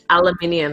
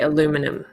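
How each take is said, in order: First: It is said with a British pronunciation. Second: It is said with an American pronunciation. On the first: This is how the British say it. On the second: This is how Americans say it.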